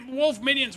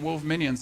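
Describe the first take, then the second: First: It is said with amazed excitement. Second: It is said with mild, flat enthusiasm.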